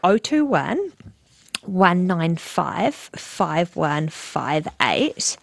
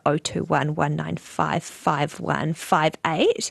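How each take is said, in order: First: The number is said more slowly. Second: The number is said at normal speed.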